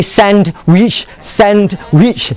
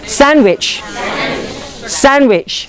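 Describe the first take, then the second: First: "sandwich" broken into "sand... wich" with a full d; over-separated "sand-wich", ending up; mock local pronunciation. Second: "Sandwich" as "SAN-wich", no d; "Sandwich" falling from a stressed first syllable; native pronunciation. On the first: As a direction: slowly split "sandwich" into two equal words. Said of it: "not like how you pronounce it". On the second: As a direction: drop the d in "Sandwich". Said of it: "they like to add syllables". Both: Shown as a demonstration.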